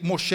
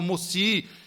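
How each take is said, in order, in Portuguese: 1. A consoante do meio é um som de 'sh'. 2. A consoante do meio é um som de 's'. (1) "Quando ia falar Moisés, ele, Moshe" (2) "ele falavam Mossi"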